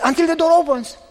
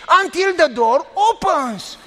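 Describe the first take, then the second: First: Said in the usual way. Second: Each word of "Until the door opens" drawn out slowly and pressed; slow spelled out. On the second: Retold or imitated. Pastor repeating for the woman who missed it, slowly. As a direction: spell it out slowly for someone who doesn't get it. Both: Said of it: "You don't know English".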